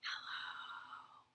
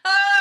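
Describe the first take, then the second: First: It is said softly. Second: It is said loudly.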